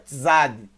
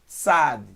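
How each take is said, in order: First: It begins with a voiced TZ sound. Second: It begins with a voiceless TS sound. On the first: The speaker calls it wrong. "não é Tzad" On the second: The speaker calls it right. "é Tzad ... não tem som de Z, tem som de S"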